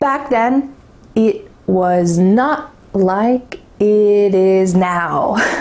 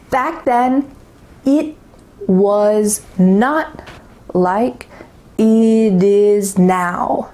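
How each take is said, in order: First: The sentence is spoken at a faster pace. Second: The sentence is spoken at a slower pace.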